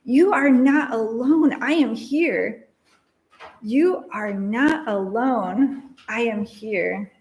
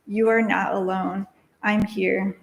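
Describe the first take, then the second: First: Slow, drawn-out echoing words; echo in her mind. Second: Said in the usual way. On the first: A narrator's reading. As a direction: let each word ring like an echo. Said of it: "like an echo in her mind". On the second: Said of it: "She said".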